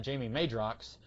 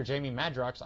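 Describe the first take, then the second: First: Madrox said with a long A, like MAY-drox; first syllable of "Madrox" rhymes with "day"; old mispronunciation. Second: Said in the usual way. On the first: Shown as a demonstration. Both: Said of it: "I used to pronounce that".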